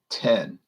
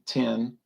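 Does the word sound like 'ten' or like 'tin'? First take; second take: ten; tin. First: The vowel sounds like the vowel in 'pet'. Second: The vowel sounds like the vowel in 'tin'. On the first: The speaker calls it right. "But they should be saying ten" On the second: The speaker calls it wrong. "People in the South have a tendency to pronounce that word like a tin, like tin roof"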